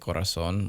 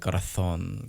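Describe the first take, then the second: First: Puerto Rican accent with a rolled R. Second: Spain Spanish accent with a lispy z.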